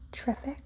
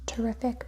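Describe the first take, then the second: First: The first vowel is dropped from the word. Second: The first vowel is pronounced in full.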